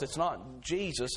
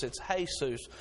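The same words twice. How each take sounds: First: It's not Jesus, with a hard English J; English J in Jesus, said as jee-zus. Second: Jesus said with an H, hay-soos; Spanish Jesus, soft H sound, hay-soos. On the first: Quoting himself to Ian, plain English Jesus. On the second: Correcting Ian, Jesus said the Spanish way. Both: Shown as a demonstration. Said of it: "They use the H's".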